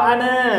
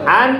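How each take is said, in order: First: The word ends with a lengthened final a vowel. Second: The word ends on n without a final vowel. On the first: The speaker calls it right. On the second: The speaker calls it wrong. "Bukan an"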